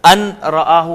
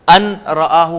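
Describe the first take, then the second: First: The n is pronounced separately before the r. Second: The same.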